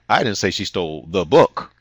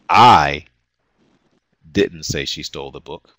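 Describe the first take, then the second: First: The word "book" carries the main stress. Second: The word "I" carries the main stress. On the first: She stole something else. "which might imply she stole something else" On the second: Someone else said it. "which implies that someone else said she stole the book"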